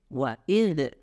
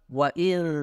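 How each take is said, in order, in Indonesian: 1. Konsonan akhir berakhir dengan pantulan yang bergema. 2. Konsonan akhir berakhir dengan halus tanpa pantulan. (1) "kurang sempurna bila bacanya seperti wa'idh ... ada sifat yang seharusnya tidak dibaca ... qalqalah" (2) "kalau wa'il itu harusnya seperti itu"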